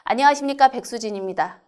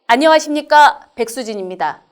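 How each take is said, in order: First: The voice drops downward and fades out. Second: The voice is projected forward and far. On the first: The speaker calls it wrong. "이거는 소리가 아래쪽으로 떨어지죠" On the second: The speaker calls it right. "음성의 정보를 실어서 멀리 던진다"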